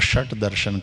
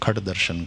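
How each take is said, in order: First: The first word begins with an 'sh' sound. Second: The first word begins with a 'kh' sound. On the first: "षट दर्शन कहो" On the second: "षट को खट बोलते हैं, श का ख की तरह"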